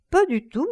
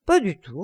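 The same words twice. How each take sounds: First: "Pas du tout" jumps much higher and rises; lively repeat. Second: Said in the usual way. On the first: A narrator's reading. Lord Henry insisting to Basil, lifted high. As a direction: lift "Pas du tout" up high, rising to the end.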